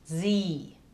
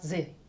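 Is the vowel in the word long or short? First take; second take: long; short. First: The vowel is held long. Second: The vowel is cut short. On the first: The speaker calls it right. "The E here in this context prolongs the I. So sie" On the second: The speaker calls it wrong. "not sie"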